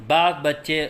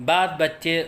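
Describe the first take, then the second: The two takes are said the same way.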